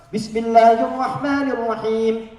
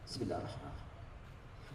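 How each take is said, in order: First: It is said loudly and clearly aloud. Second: It is said very quietly, almost silently.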